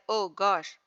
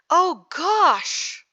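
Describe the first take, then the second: First: It is said flatly with little emotion. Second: It is said with strong emotion.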